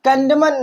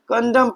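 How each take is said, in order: First: The final n sound is pronounced. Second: The final n sound is silent. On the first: The speaker calls it wrong. "कंडमन नहीं पढ़ते हम इसे।" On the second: The speaker calls it right. "हम क्या पढ़ते हैं इसे? कंडम पढ़ते हैं।"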